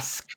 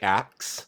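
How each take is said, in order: First: The word ends with an s then k sound. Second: The word ends with a k then s sound.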